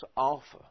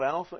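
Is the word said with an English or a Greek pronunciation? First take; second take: Greek; English. First: It is said with a Greek pronunciation. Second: It is said with an English pronunciation. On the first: The speaker calls it right. "in Greek, it's alpha" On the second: The speaker calls it wrong. "this is an English thing we're used to"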